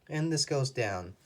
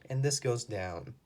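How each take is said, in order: No difference in how they are said.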